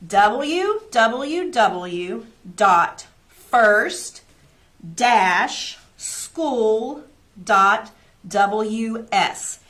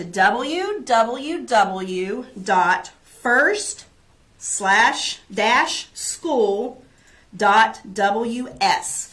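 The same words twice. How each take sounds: First: Very slow, louder, every letter apart; slower, louder repeat. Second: Slow, clear web address, letter by letter; slow dictation. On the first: Teacher repeating the website for parents, slower and louder. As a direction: dictate it once more, slower still. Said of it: "we'll say it one more time". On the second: Teacher reading a website to parents, slowly. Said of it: "but I will say it". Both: Shown as a demonstration.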